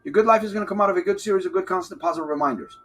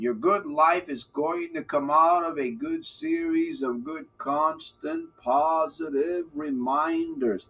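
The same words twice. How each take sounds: First: Rushed and quick; fast. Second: Very slow, each word drawn out; slow motion. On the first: Coach replaying his motto for viewers, very fast. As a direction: rattle it off fast like a rewind. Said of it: "go faster now". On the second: Coach repeating his motto to viewers, slowly. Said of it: "I'll say it in slow motion". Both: Shown as a demonstration.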